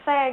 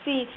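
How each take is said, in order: First: The vowel sounds like 'eh'. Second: The vowel sounds like 'ee'. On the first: The speaker calls it wrong. "kadang-kadang kan se gitu" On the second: The speaker calls it right. "padahal bacanya kan si"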